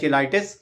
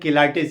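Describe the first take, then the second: First: The word begins with a ch sound. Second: The word begins with a k sound. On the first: "कुछ लोग इसको चिलाइटिस pronounce" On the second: "medical भाषा में इसे हम कीलाइटिस कहते हैं"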